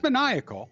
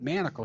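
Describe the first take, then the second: First: It is said with four syllables, ma-ni-a-cal. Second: It is said with three syllables, man-a-cle. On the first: This is how the word really goes. The speaker calls it right. "it's it's maniacal" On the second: This is how the singer says it. The speaker calls it wrong. "but he pronounces it manacle shots"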